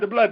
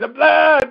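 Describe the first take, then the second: First: It is said very quickly, in rapid repetition. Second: It is said with a strained, forced voice.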